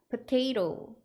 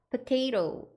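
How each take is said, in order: First: The word is pronounced with soft, relaxed consonants. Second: The same.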